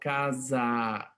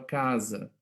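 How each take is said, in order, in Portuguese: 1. A vogal final é um 'a' aberto e pleno. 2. A vogal final é uma vogal central reduzida. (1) "Eu não falo casa" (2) "Normalmente a gente fala casa. Ele é mais central"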